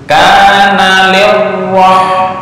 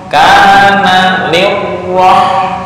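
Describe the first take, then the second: The two takes are said the same way.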